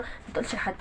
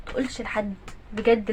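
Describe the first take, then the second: First: Unvoiced whisper, hushed and low; secretive whisper. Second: Said in the usual way. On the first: Mother hushing son not to tell anyone, whispered.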